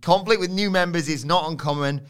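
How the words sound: It is said in a put-on character voice.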